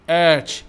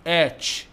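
First: اتش called out loud and strong; loud model letter. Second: Said in the usual way. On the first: Shown as a demonstration. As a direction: belt out اتش so the class repeats it. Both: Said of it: "ما أسمعكم بصوت عالي".

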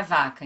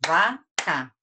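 First: Said in the usual way. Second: "vaca" as two separate beats, va, ca; syllable by syllable. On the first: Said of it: "Quantas sílabas tem na palavra". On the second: Shown as a demonstration. Teacher claps the word for pupils to count, syllable by syllable. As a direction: clap out "vaca" with a pause between syllables. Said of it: "Quantas palmas eu bati?".

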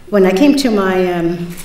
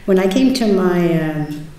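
Both takes have the same delivery.

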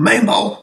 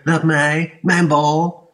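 First: Hoge, luide schreeuw; schreeuwen. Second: Gerard hoog en luid na-apen; spottend nadoen. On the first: Acted. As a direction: brul het uit om de bal. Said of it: "schreeuwt Gerard". (Gerard schreeuwt om de bal, hoog en luid) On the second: Retold or imitated. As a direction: bespot hem met zijn eigen kreet. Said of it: "Wie riep er". (Jan Remco aapt Gerard spottend na, hoog en luid)

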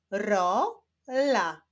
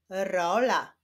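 First: "Rola" slowly split into ro, la; syllable by syllable. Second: Said in the usual way. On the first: Shown as a demonstration. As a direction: sound out "Rola" with a break between syllables. ("Rola" powoli, z podziałem na ro, la) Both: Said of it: "Łączymy ze sobą sylaby".

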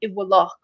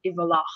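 First: Iwalach with a V in the middle; V version. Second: Iwalach with a W in the middle; W version. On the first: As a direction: say Iwalach with a clear V. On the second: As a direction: Ulster W sound. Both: Shown as a demonstration. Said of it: "so V versus W there".

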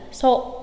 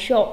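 First: "sộ" with a plain hissed s; wrong "so" sound. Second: "sộ" said as sho, hushing sh; correct "sho" sound. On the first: Teacher showing the mistake, "sộ" with plain s. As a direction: say "sộ" as so, without any sh. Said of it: "không phải là sộ". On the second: Teacher giving the correction, "sộ" pronounced sho. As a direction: say "sộ" with sh, not s. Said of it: "mà là sộ". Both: Shown as a demonstration.

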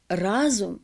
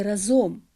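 First: Разом stressed on the first syllable, рАзом; correct stress. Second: Разом stressed on the last syllable, разОм; misplaced stress. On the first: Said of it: "а не разом". (правильний наголос: рАзом) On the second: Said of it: "а не". (помилковий наголос: разОм) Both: Shown as a demonstration.

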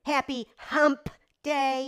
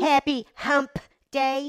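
First: Happy Hump Day, slow, Hump dragged out; suggestive stress. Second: Happy Hump Day with Hump leaned on slowly; suggestive stress. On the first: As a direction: draw out Hump with innuendo. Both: Shown as a demonstration. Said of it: "when you say it like that".

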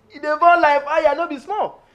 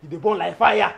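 First: Louder. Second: Said in the usual way. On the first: Acted. Louder repeat of line 23.

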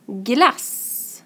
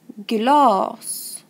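First: "Glass" with a short a and a long s; short-vowel example. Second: "Glas" with a long a; long-vowel example. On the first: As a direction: keep the a in "Glass" brief. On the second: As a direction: draw out the a in "Glas". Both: Shown as a demonstration. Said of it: "Jag läser och ni får lyssna".

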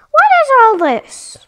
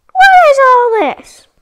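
First: High, loud disbelief; surprised. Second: Even louder, high disbelief; shocked shout. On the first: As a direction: react with shock. Surprised at destroyed stairs, first take. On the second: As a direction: demand it in outrage. Surprised, louder second take. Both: Real, not acted.

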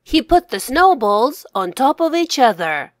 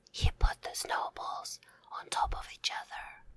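First: Said in the usual way. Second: Whispered repeat. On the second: Shown as a demonstration. Author whispering the sentence back for young readers. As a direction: say it again in a whisper. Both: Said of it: "repeat, then whispered".

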